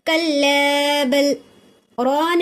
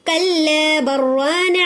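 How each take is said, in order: First: A brief breath-held stop comes after bal. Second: Bal runs straight into ran as barran. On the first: "सांस को रोक ली, लेकिन सांस को तोड़ी नहीं" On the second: "अगर मिलाले को चले जा रही हूँ, रोक रही हूँ नहीं"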